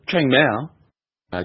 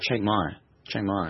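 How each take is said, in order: First: The second word is said like 'mao'. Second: The second word is said like 'my'. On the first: The speaker calls it wrong. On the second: The speaker calls it right.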